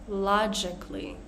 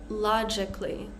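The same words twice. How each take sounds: Both takes have the same delivery.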